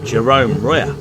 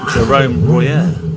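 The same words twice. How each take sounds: First: The name is pronounced in an English way. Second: The name is pronounced in a French way.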